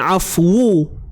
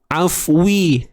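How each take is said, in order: First: The w is followed by a u vowel. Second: The w is followed by an i vowel. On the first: "Tapi bukan afu, itu baris depan" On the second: "Bukan juga afwi, tu baris bawah"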